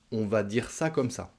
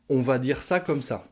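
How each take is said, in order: First: Said in the usual way. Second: Ça said with a clear falling close; model phrase. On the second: Shown as a demonstration. Teacher modelling a common spoken phrase, falling at the end. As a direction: say On va dire ça comme ça, letting ça fall. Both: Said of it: "qu'on entend très souvent aussi à l'oral".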